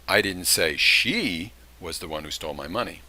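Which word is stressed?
she. The word "she" carries the main stress. "That would intimate that there was somebody else"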